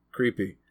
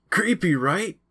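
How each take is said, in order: First: Flat, bored agreement; unimpressed. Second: High, eager creepy question; excited. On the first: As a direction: say it without buying it. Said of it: "but was unimpressed". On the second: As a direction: pipe it up with a wide grin. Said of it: "his eyes wide with excitement". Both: A narrator's reading.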